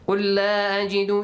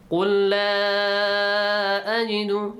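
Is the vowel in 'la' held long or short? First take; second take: short; long. First: The vowel in 'la' is kept short. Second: The vowel in 'la' is stretched long. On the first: "you can ignore it" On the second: "you can read it"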